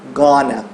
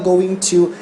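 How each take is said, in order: First: The words blend into one short reduced word. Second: Both words are said fully and separately. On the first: The speaker calls it right. "a gente fala gonna" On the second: The speaker calls it wrong. "a gente não fala going to em inglês"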